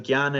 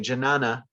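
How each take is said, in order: First: The first consonants are said together without a vowel. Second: An extra vowel splits the first two consonants.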